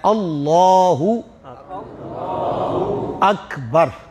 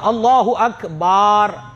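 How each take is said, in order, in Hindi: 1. bar अक्षर में स्वर छोटा है। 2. bar अक्षर में स्वर लंबा है। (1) "ये इसी तरह पढ़ा जाता है" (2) "यह भी तीसरी गलती है"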